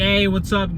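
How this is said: It is said in a bright, upbeat tone. "when you're bright, you're probably like"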